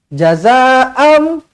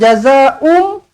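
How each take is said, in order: First: The last vowel before m is a. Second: The last vowel before m is u. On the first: The speaker calls it right. "Jazaa'am bukan jazaa'um" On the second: The speaker calls it wrong. "bukan jazaa'um"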